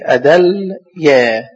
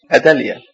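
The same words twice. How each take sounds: First: أدليا very slow, L held before the final yaa; spelled out by syllables. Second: Said in the usual way. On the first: Shown as a demonstration. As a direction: sound out أدليا as a-dal, then yaa. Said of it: "الدال عليها فتحة". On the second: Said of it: "تبقى إيه؟".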